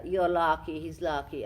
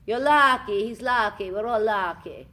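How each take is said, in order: First: A light, playful Transylvanian lilt; lightly put-on Transylvanian accent. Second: Loud, high, hammed-up Transylvanian accent. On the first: Actress showing off her Transylvanian accent. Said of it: "I come from Transylvania". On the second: Shown as a demonstration. Actress proudly demonstrating her Transylvanian voice. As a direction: belt it out in a thick Transylvanian accent. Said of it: "That's my Transylvanian".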